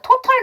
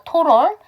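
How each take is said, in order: First: The middle T is a clear, full T. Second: The middle T is softened into a flap.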